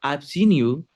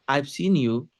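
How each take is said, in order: The two takes are said the same way.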